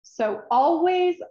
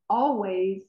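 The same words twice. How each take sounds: First: "always" higher, louder and stretched slowly; emphatic always. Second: Said in the usual way. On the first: Shown as a demonstration. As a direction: lean hard into "always". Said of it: "always repeated, building". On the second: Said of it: "always repeated, fading".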